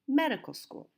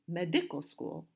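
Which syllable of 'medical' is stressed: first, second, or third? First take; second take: first; second. First: The stress is on the first syllable. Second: The stress is on the second syllable. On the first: The speaker calls it right. "So we say medical school. The stress is on the first syllable" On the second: The speaker calls it wrong. "We don't say medical school"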